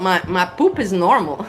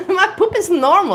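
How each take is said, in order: First: Said in the usual way. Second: High, laughing through the words. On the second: Real, not acted. Telling viewers about her poop, laughing. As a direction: giggle it out, tickled.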